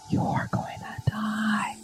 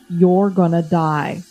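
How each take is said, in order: First: It is spoken in a soft whisper. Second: It is spoken in a normal, full voice. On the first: The speaker calls it right. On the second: The speaker calls it wrong.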